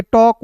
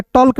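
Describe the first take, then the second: First: टॉक with a silent L; correct pronunciation demo. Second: टॉल्क with the L sounded; wrong pronunciation demo. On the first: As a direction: say टॉक as "tawk", no L sound. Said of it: "इसे पढ़ेंगे". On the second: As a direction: say टॉल्क with an audible L before K. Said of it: "टॉल्क नहीं पढ़ेंगे". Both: Shown as a demonstration.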